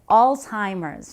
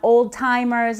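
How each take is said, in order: First: The first syllable sounds like 'alz'. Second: The first syllable sounds like 'old'. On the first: The speaker calls it right. "that's how you pronounce it" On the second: The speaker calls it wrong. "not old timers"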